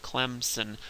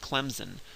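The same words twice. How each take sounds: First: No P is added and the S stays unvoiced. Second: The S is voiced and sounds like Z. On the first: It follows the spelling exactly. "the way it's quote unquote supposed to be pronounced" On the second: The speaker is from the North. "people from up north will pronounce it Clemson with a Z"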